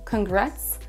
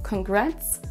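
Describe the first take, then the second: The two takes are said the same way.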